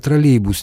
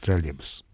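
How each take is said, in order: First: The middle 'y' sound is fully pronounced. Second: The middle 'y' sound is dropped. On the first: This is careful full-style speech. "при быстром темпе мы склонны проглатывать значительное количество согласных звуков" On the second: This is casual fast speech. "троллейбус неизбежно превращается в троллейбус"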